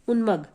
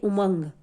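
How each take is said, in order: First: The nasal sound follows the first syllable. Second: The nasal sound follows the second syllable. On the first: The speaker calls it wrong. "इसकी आवाज ऊ के बाद निकालेंगे" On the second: The speaker calls it right. "म के बाद इसकी आवाज निकालेंगे"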